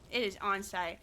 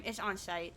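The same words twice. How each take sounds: First: "It is on site" with IS leaned on as a firm repeat; stress on IS. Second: Said in the usual way. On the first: Real, not acted. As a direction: insist on the word is.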